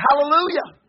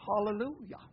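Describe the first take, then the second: First: High, loud hallelujah; exuberant praise. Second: "Hallelujah" said softly with a broad "hah" opening; mock proper pronunciation. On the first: Retold or imitated. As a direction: call out praise over the music. Own praise during music, retold. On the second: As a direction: pronounce "Hallelujah" primly, first vowel as in "father". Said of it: "proper pronunciation".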